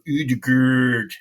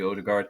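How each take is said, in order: First: The name has a foreign-sounding vowel and ending. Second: The name sounds the way it is spelled. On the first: The speaker calls it wrong. "the whole movement for Udgerd" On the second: The speaker calls it right. "so just say Odegaard"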